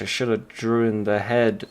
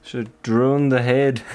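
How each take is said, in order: First: Said in the usual way. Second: Clumsy mock Scottish on drawn the head; light put-on Scottish; bad Scottish accent. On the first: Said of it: "I'm not very good at Scottish". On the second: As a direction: try a Scottish lilt and miss a bit. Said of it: "I don't have a very good Scottish dialect".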